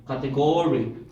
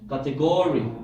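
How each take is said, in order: First: The stress is on the third syllable. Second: The same.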